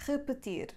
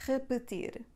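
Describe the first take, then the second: No difference in how they are said.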